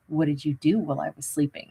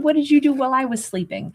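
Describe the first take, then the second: First: It sounds suspicious and accusatory. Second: It sounds friendly and casual. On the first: The asker distrusts the other person. The speaker calls it wrong. "Not like" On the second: It is a simple, courteous question. The speaker calls it right. "a straight up wonderful courtesy"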